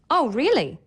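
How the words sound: The voice sounds surprised, with lively pitch changes. The news is unexpected. "show surprise"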